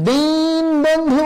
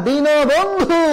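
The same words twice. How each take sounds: First: দিন বন্ধু as two split words, slow and higher; wrong pronunciation. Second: দীন বন্ধু joined, with o after দীন, higher; correct pronunciation. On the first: Teacher warns students against saying দিন বন্ধু. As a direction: slowly demonstrate the split দিন বন্ধু as the error. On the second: Teacher gives students the correct দীন বন্ধু. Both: Shown as a demonstration. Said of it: "বলা যাবে না".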